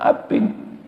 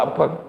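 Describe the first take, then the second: First: The second vowel is a high 'i' sound. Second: The second vowel is an open 'a' sound. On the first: This is how people from Bojonegoro to Semarang say it. "Di sana abing" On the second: This is how people from Surabaya say it. "Panjenengan kan uh abang"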